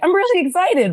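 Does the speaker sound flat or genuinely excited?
genuinely excited. It sounds genuinely and convincingly excited.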